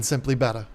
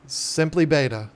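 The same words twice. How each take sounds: First: "Beta" said bet-tuh with a short E; "Beta" rhyming with "better", short E; betta pronunciation. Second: "Beta" said bay-tuh with a long A; "Beta" as bay-ta, like the Greek letter; bay-ta pronunciation. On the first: Host mocking the worse version, saying "Beta" as betta. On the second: Host praising a friend's channel name, saying "Beta" as bay-ta. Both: Shown as a demonstration. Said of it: "sounds so much better".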